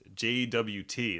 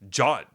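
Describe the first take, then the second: First: It is spelled out as separate letters. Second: It is said as one short syllable. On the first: "That's that's three syllables. Four syllables" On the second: "J O T is one"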